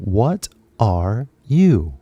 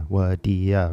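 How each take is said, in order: First: Each word is said separately and fully. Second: The words blend into one reduced word. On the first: The speaker calls it wrong. "we don't say this" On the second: The speaker calls it right. "when we're talking normally"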